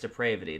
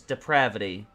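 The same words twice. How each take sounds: First: The middle vowel matches the one in 'deprave'. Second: The middle vowel differs from the one in 'deprave'. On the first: The speaker calls it wrong. "You do not say it in any any way as depravity. That's just flat out incorrect" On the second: The speaker calls it right. "it is only said as depravity"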